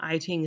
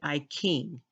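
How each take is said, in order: First: The second word begins with a 'ch' sound. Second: The second word begins with a 'k' sound. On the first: The speaker calls it wrong. "is not I Ching" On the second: The speaker calls it right. "it's actually I King"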